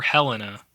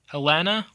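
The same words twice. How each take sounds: First: Helena as HEL-uh-nuh; stress on first syllable. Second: Helena as huh-LEN-uh; stress on second syllable. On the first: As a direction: hit the first vowel of Helena. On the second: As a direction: stress the middle vowel of Helena. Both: Shown as a demonstration. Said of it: "vowel is stressed".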